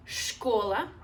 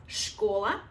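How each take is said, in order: Both takes have the same delivery.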